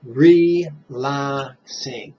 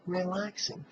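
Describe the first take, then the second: First: Relaxing stretched very slowly; long slow exhale on Relaxing; slow drawn-out recitation. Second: Relaxing softer, with a higher rise; gentle soft echo of Relaxing; soft repeat. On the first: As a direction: let Relaxing melt out slowly on the breath. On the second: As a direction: echo Relaxing softly, rising, much softer. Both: Shown as a demonstration. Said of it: "what do you mentally recite".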